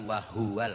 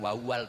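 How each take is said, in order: First: The middle h sound is clearly pronounced. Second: The middle h sound is left out. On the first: The speaker calls it right. "haknya harus jelas" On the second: The speaker calls it wrong. "bukan wawal"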